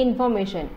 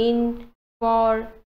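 First: Said in the usual way. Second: information broken slowly into four separate syllables. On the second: Shown as a demonstration. Teacher showing syllables, information split slowly into four beats. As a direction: draw out information, pausing after each syllable. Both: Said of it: "কিমান বাৰ মই ভাঙিব পাৰোঁ".

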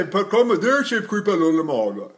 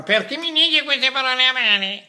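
First: Mouthy, distorted vowels; distorted covered diction. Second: Higher, pinched vowels; pinched distorted diction. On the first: Teacher mocking covered Italian diction. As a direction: swallow the words. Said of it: "Am I really gonna say". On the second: Teacher mocking pinched Italian diction. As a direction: squeeze and mangle the words. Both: Shown as a demonstration.

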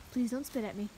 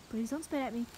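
The two takes are said the same way.

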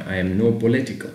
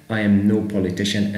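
First: Slow, questioning read; slow demo of wrong answer. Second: Slow, settled read; slow demo of right answer. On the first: Teacher to students, trying the wrong answer slowly. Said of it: "مش ينفع صفة". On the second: Teacher to students, confirming the correct sentence slowly. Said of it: "هي رقم بي politician". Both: Shown as a demonstration.

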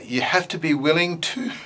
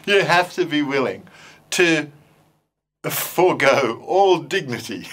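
First: Said in the usual way. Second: Laughing through the words; cracking up mid-sentence. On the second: Real, not acted. Teacher laughing about forgoing dignity with puppets, laughing.

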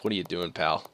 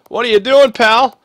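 First: Said in the usual way. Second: High, loud scolding of a player; exasperated yell. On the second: Real, not acted. Gamer yelling at his struggling player, exasperated. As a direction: call him out in disbelief.

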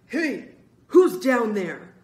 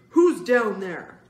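First: Loud, drawn-out angry call; angry man's shout. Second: Loud, slow, angry demand; angrier shout. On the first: Angry man calling down to children in the basement, loud drawn-out shout. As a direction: bellow down at intruders. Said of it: "an angry man's voice called". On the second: Spidey closing in on the children, slow loud angry demand. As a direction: shout it down, stretching the words. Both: A narrator's reading.

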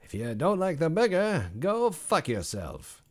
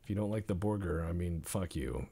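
First: High, slow, drawn-out mock delivery; redone in a silly voice. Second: Said in the usual way. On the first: Chef insulting picky customers, slow hammed-up voice. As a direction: stretch out go fuck yourself, hammed up. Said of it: "Why did I say that like Regis Philbin". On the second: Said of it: "Put that on the menu".

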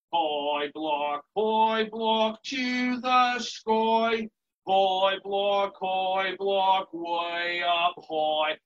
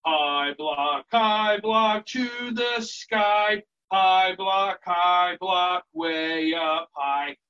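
First: Sung, slow nursery tune with twisted, goofy vowels; goofy put-on singing voice; silly-voice singing. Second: Sung, slow nursery-rhyme tune in natural voice; steady, unaccompanied sing-along. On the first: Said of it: "use a silly voice". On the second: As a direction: sing it straight for kids. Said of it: "let's try it again". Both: Shown as a demonstration.

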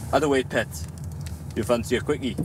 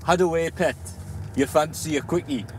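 First: "How the way, pet" in a Geordie accent; Geordie chat-up line. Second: "How the way, pet" a little higher, in a Geordie accent; Geordie line repeated. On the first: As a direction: give a Geordie pickup line, cheeky. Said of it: "The line that I use". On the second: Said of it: "come again?". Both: Shown as a demonstration.

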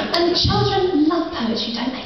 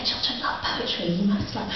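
First: High, sing-song mock parent; gushing parent. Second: Soft, whispered aside; confiding parent. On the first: Mock parent cooing to the poet about children. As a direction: gush it like an eager mum. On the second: Retold or imitated. Mock parent whispering to the poet about children. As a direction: lean in and murmur it conspiratorially. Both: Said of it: "And they're like".

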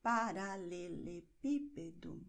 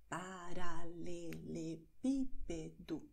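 First: Said in the usual way. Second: Paralelepípedo slowly, syllable by syllable, PÍ stressed; careful slow tongue twister. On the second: Shown as a demonstration. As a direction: draw out Paralelepípedo and lean on PÍ. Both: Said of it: "betonen wir automatisch".

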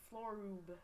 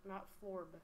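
First: Florub said as Flo-rub, two syllables. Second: Florb said as one clipped syllable. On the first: Player correcting the creature's name, Florub in two syllables. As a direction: sound out Florub with a vowel before the b. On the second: Player rejecting the wrong reading, Florb in one syllable. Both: Shown as a demonstration.

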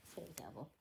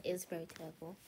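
First: Quiet. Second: Said in the usual way. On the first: Shown as a demonstration. Repeats line, second much softer.

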